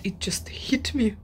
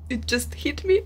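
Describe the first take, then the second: First: Whispered realization; whispered "it just hit me". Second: Emphatic. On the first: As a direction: whisper it in awe. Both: Real, not acted.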